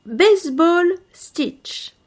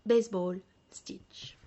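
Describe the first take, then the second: First: Slow, loud "Baseball stitch" in English; English word. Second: "Baseball stitch" whispered softly; whispered term. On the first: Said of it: "headword in English". ("Baseball stitch" prononcé à l'anglaise, lentement et fort) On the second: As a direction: breathe "Baseball stitch" as an aside. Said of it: "repeats the term softly". ("Baseball stitch" chuchoté) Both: Shown as a demonstration.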